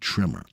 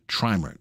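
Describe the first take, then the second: First: The first vowel sounds like 'it'. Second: The first vowel sounds like 'eye'. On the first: The speaker calls it wrong. "if it was two M's, I would call it trimmer" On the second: The speaker calls it right. "the right pronunciation of that word is trimer"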